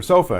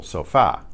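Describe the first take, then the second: First: Said in the usual way. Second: Sofa said so-FA; Spanish sofa, weight landing on the end; last-syllable stress. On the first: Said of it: "That's the word for sofa". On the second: Shown as a demonstration. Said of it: "why is the stress on that last syllable".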